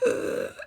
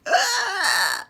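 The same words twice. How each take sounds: First: Short strained grunt, fairly loud; a choked gasp-grunt; strained ugh, imitated. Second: Very loud, high, strained groaning cry; terrifying loud groan, imitated; loud awful groan. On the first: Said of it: "he was gasping". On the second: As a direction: let out a god-awful choking groan. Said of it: "a really loud fucking noise".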